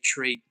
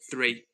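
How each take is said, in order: First: The word starts with a plain t sound. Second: The word starts with a th sound. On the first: "Irish people... They literally do say tree" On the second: "rather than three"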